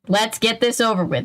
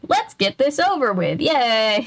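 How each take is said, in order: First: It is said in a heavy, gloomy way. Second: It is said in a light, cheery way.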